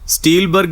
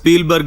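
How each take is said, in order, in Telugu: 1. ఈ పేరు 'st' శబ్దంతో మొదలవుతుంది. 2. ఈ పేరు 'sp' శబ్దంతో మొదలవుతుంది.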